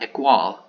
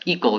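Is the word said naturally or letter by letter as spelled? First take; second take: letter by letter; naturally. First: It is sounded out letter by letter. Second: It is said with the usual English pronunciation. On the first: The speaker calls it wrong. "not equal" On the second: The speaker calls it right. "that's equal"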